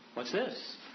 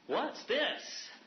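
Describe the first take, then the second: First: It is asked in a curious, questioning tone. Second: It is said in a delighted, pleased tone. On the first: The speaker wants to know what the food is. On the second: The speaker is happy about the food.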